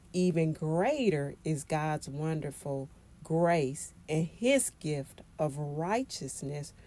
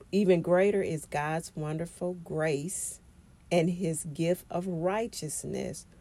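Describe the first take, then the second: The two takes are said the same way.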